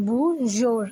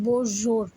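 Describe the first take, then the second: First: "বুজোর" with a "ju" sound; mistaken pronunciation. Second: "বোজোর" with o in both syllables; corrected pronunciation. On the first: Teacher reading out a miswritten French greeting, "বুজোর" with "ju". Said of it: "আমি ভুলে জু লিখে ফেলেছি". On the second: Teacher correcting the French greeting for learners, "বোজোর" with o sounds. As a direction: say "বোজোর", bo-jor rather than bu-jor. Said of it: "এটা হবে". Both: Shown as a demonstration.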